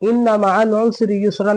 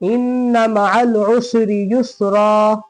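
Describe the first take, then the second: First: The last word ends with an 'n' sound. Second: The last word ends on a long vowel. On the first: The speaker calls it wrong. "नहीं पढ़ेंगे।" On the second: The speaker calls it right. "इस तरह पढ़ेंगे।"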